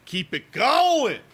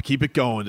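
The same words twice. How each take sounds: First: High, slow, stretched-out rallying cry; drawn-out cheer. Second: Said in the usual way. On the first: Real, not acted. Host cheering on Bob for today, drawn-out cheer. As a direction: stretch it out high, urging the goalie on. Urging goalie on, drawn-out repeat.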